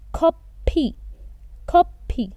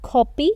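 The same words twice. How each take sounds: First: Slow "copy" with an aspirated kh; correct Korean pronunciation. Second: "copy" said as plain English copy; the wrong way, "copy" like the English word; wrong pronunciation. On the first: Teacher shows the right Korean way to say "copy". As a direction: drag out "copy", breathy k at the start. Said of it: "It's not copy, it's copy". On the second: Teacher shows the wrong way to say "copy". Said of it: "It's not copy". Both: Shown as a demonstration.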